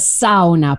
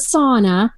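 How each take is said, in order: First: The word is said the Finnish way. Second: The word is said in a non-Finnish way. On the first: This is how Finnish people say it. The speaker calls it right. "that's how you say it in Finn" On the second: This is how outsiders say it. The speaker calls it wrong. "not the sauna. That's not what we call it"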